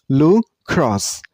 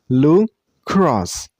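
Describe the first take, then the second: The two takes are said the same way.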